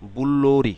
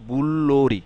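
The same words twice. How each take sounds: Both takes have the same delivery.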